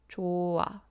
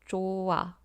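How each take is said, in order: First: The h sound is softened and flows into the vowel. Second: The h sound is softened and flows into the vowel.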